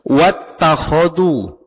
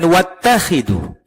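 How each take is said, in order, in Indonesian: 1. Vokal tengah terdengar seperti 'u' atau 'o'. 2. Vokal tengah terdengar seperti 'i'. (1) "Kalau Quran yang saya baca ini, wattakhodu" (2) "bukan wattakhidu"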